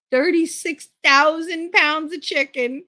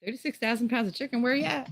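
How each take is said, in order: First: Higher, slow, stretched-out disbelief; slow, incredulous rant. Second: Higher, fast, softer hawking call; quick mock sales pitch. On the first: Real, not acted. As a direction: drag it out like you can't believe it. Stuck with a rejected load. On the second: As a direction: tease it out like a street seller. Calling out for buyers.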